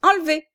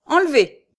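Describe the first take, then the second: First: High, loud echoed command; most sonorous voice. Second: High, loud one-word command; notary's order. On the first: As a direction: call the order out resonantly. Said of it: "de sa voix la plus sonore". (ordre répété d'une voix sonore) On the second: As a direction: order the removal at once. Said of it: "répéta l'huissier de sa voix la plus sonore". (ordre lancé d'une voix forte) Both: A narrator's reading.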